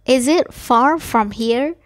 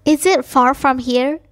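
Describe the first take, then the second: No difference in how they are said.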